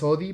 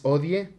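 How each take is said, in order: First: The final vowel is dropped. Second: The final vowel is clearly pronounced. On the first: The speaker calls it wrong. "no es odi porque este no es inglés" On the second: The speaker calls it right. "Es odie, se pronuncia esta e del final"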